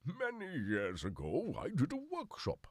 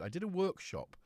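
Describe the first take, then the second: First: Drawn-out, swooping high theatrical voice; theatrical storyteller. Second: Said in the usual way. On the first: Pretend. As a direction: intone it grandly, stretching the words. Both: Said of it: "I don't know why I've gone".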